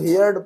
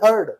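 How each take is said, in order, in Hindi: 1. स्वर 'hear' जैसा है। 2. स्वर 'her' जैसा है। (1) "बहुत सारे लोग हियर्ड पढ़ते हैं इसको... जो क्या गलत है" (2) "इसका सेकंड और थर्ड फॉर्म है हर्ड"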